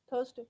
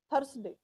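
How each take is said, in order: First: "Thursday" with the r dropped; "Thursday" said smoothly, no r; relaxed "Thursday" without the r; soft no-r Thursday. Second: "Thursday" with the r sounded; "Thursday" with a clear Punjabi r; heavy-r "Thursday"; rolled r Thursday. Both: Shown as a demonstration. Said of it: "Don't say that r".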